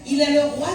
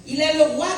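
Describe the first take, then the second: No difference in how they are said.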